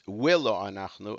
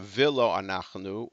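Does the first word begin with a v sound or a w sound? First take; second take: w; v. First: The first word begins with a w sound. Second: The first word begins with a v sound. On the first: "it's willo anachnu" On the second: "instead of vilo anachnu"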